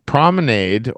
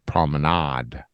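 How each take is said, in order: First: It is said with a non-British pronunciation. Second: It is said with a British pronunciation. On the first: "it's a promenade" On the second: "the British would say promenade"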